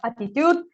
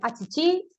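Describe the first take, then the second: First: The word is pronounced with a Spanish accent. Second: The word is pronounced with a Portuguese accent. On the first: "en español le diríamos attitude" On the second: "en portugués le dirían achichi"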